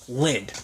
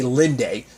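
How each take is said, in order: First: The name ends on the consonant, vowel silent. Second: The name ends with a sounded final vowel. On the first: "I didn't know it was like a silent E" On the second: "I would say Linde"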